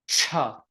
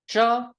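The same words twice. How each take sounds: First: The consonant is said with a puff of breath. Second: The consonant is said without a puff of breath. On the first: "aspirated cha" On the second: "unaspirated cha"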